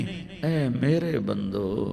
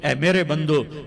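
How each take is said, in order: First: It is said in a warm, loving tone. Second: It is said in a flat, plain tone. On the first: The speaker calls it right. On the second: The speaker calls it wrong.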